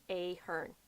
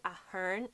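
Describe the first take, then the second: First: Ahern as AY-hern; wrong Ahern. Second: Ahern as A-hern, short open A; correct Ahern. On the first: Ruling out the common misreading, AY-hern. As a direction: say Ahern with long AY, softer. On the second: Telling viewers how the Irish say Ahern, short A. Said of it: "but we go". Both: Shown as a demonstration.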